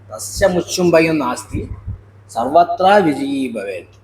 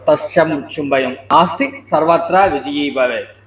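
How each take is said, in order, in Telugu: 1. విరామం 'nasti' అనే పదం తర్వాత వస్తుంది. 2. విరామం 'sarvatra' అనే పదం తర్వాత వస్తుంది. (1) "ఇది ఎలా చదవాలంటే" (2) "అలా చదివితే మొత్తం అంతా వ్యతిరేకం అయిపోతుంది"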